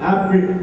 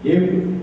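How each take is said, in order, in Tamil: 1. முதல் உயிரெழுத்து நீண்ட திறந்த 'ah' ஒலி. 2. முதல் உயிரெழுத்து 'eh' ஒலி. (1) "ஆப்பிள் என்று நாம் சொல்லுவோம்" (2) "ஒரு இங்கிலீஷ் காரத்தை ஆப்பிள் வாசிச்சிருந்தா"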